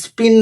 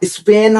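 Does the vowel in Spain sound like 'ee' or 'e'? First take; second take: ee; e. First: The vowel sounds like 'ee', as in spin. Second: The vowel sounds like 'e', as in Spain. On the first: The speaker calls it wrong. "ওটা স্পিন না" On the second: The speaker calls it right. "স্পেন হবে"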